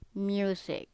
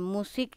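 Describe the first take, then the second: First: It is pronounced the English way. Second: It is pronounced the Indonesian way. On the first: The speaker calls it right. "but music" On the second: The speaker calls it wrong. "bukan musik in like in bahasa"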